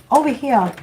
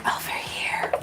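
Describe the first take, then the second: First: Said in the usual way. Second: Soft breathy whisper; spirit whisper. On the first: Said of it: "They're like". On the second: Retold or imitated. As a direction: whisper it like a secret in someone's ear. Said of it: "whisper that in my ear again".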